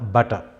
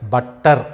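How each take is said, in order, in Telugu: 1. మధ్యలో ఉన్న t ఒక్కటే ఉంటుంది, దాన్ని తక్కువసేపు పలకాలి. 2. మధ్యలో ఉన్న t రెండుసార్లు ఉంటుంది, దాన్ని ఎక్కువసేపు పలకాలి. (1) "రెండు కాన్సనెంట్స్ ఉన్నా కూడా ఒకదాన్ని పలకాలి" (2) "బట్టర్ అనకూడదు"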